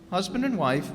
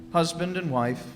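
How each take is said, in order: Both takes have the same delivery.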